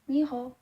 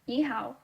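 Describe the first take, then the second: First: It is spoken with Nantong dialect pronunciation. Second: It is spoken with Mandarin pronunciation. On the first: "for my hometown Nantong dialect" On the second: "for Beijinghua or Mandarin"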